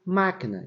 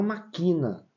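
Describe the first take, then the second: First: Máquina with the first syllable strong; stress on MÁ. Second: Maquina with the middle syllable strong; stress on QUI. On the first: Teacher contrasting word forms, máquina stressed on first syllable. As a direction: hit MÁ in máquina, let the rest fall. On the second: Teacher showing the unaccented reading, maquina stressed on QUI. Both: Shown as a demonstration. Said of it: "escrever máquina e não maquina".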